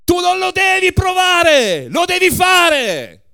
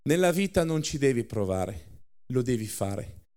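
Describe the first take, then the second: First: Much higher, very loud roar, "fare" slowed; ex-KGB giant roaring at the waitress; furious shout. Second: Calm life lesson. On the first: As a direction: bellow it at the waitress. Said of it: "E gridò". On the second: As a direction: teach it gently after the roar. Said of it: "dà la sua lezione di vita". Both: A narrator's reading.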